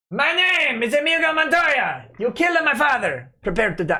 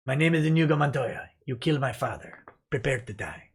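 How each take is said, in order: First: Hammed-up Inigo Montoya. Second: Low and soft, a quiet menacing hint of Inigo; a lightly voiced duelist, low and hushed; mock Inigo Montoya. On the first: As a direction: belt it out like a swashbuckler, high and stretched. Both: Viewer asks for the Inigo line.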